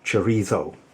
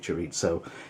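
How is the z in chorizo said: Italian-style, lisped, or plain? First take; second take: lisped; Italian-style. First: The word is said with a lisped z sound. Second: The word is said with an Italian-style z sound. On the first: This is how people in Madrid say it. "if you live in Madrid and you have the official Madrid lisp" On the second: This is how it would be said if it were Italian. "If it was Italian, it would be"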